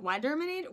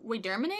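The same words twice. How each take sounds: First: "Waderminator" opening with a WHY sound; unsure "Waderminator", first vowel as in "wide"; alternative pronunciation. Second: "Waderminator" opening with a WEE sound; tentative "Waderminator", first vowel as in "weed"; trying a pronunciation. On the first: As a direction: say "Waderminator" as WHY-der-minator, questioning. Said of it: "I don't know how to pronounce your name". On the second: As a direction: say "Waderminator" as WEE-der-minator, questioning. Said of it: "How do I pronounce your name?". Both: Real, not acted.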